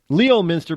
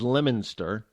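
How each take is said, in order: First: It is said as spelled. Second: It is said in the local New England way.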